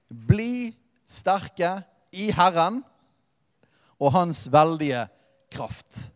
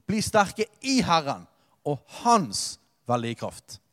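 First: Very slow, each word weighed, «kraft» breathed out unvoiced; solemn verse read-out, drawn out and fading to a breath; slow scripture reading. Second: Preacher restating the key verse; repeated for emphasis. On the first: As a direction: read «bli sterke i Herren» at a crawl, with «kraft» nearly whispered. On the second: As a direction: say «Bli sterke i Herren» briskly, then sink on «hans veldige kraft». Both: Shown as a demonstration. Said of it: "Det er der nøkkelen ligger".

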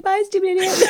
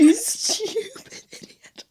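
First: High-pitched playful parting insult; imitated huff, pitched up; mock huffy exit. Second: High, drawn-out insult squeezed through laughter; slow, softened squeal of mock outrage; laughing mock insult. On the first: Listener mimics the offended man. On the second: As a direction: stretch it out, helpless with giggles. Teller repeats insult while laughing.

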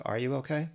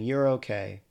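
First: "Are you okay?" as a question, rising on "okay"; asking. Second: "You're okay" as a statement, firmer on "okay"; dismissive statement. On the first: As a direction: ask "Are you okay?" with a gentle lift at the end. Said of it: "we can actually ask". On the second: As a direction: say "You're okay" as a settled fact, falling at the end. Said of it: "Instead of saying". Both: Acted.

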